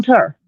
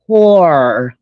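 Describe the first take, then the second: First: Tour said short, like "ter"; Southern tour. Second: TOUR stretched out as a careful "tor"; correctly said tour. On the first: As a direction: say tour as Southern "tur", rhyming with fur. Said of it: "a problem with the Southern accent". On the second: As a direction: say tour slowly, rhyming with "four". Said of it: "let me say it correctly this time". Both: Shown as a demonstration.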